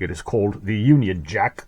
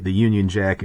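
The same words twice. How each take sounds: First: "Union Jack" in a hammed-up British accent; name the flag with mock British flair. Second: Said in the usual way. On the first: Presenting the flag to viewers in a mock British accent. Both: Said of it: "I can't do that for that accent".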